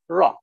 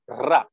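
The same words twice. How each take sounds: First: The r is smooth, without tongue vibration. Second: The r is tapped with a vibrating tongue. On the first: "English Ra, it is pronounced without vibration, without flapping" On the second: "I'll first show the Indian Ra"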